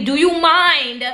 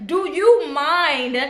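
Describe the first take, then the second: First: Slow, high "Do you mind?" kept polite; polite slow ask. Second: Slow, high "Do you mind?" sung out sweetly; sweeter polite ask. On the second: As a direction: stretch "Do you mind?" in a sugary voice. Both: Retold or imitated. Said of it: "These are all words of great vibe".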